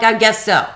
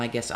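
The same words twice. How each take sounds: First: Louder, higher sarcastic echo of the clerk; mocking echo. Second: Quiet, lower, timid clerk; meek mumbled clerk. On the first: Mocking the clerk's meek answer, sarcastic echo. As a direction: throw his words back mockingly. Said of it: "I'm like". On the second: Retold or imitated. The clerk giving in to the caller, meek mumble. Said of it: "He was like".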